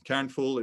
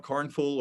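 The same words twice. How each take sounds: First: Kernful with a different first vowel from Karnful; alternative pronunciation. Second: Karnful with an "ar" vowel; one pronunciation option. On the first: Founder offers listeners a choice of name, saying Kernful as "kern". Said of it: "It depends on how you wanna say it". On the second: Founder offers listeners a choice of name, saying Karnful with "ar". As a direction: say Karnful, first syllable like "karn". It depends on how you wanna say it. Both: Shown as a demonstration.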